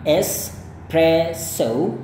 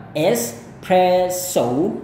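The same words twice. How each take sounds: First: Very slow British espresso, rising tune. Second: Very slow American espresso ending in ou. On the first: Teacher slowly models the British espresso. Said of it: "itu gaya British". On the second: Teacher slowly models the American espresso. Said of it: "gaya Amerika". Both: Shown as a demonstration.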